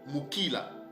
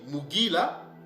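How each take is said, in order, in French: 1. La consonne du milieu est un K sourd. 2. La consonne du milieu est un G sonore. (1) "on peut le lire Mukila" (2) "on peut lire Mugila"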